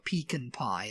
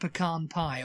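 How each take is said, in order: First: Pecan is pronounced the British way. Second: Pecan is pronounced the usual American way.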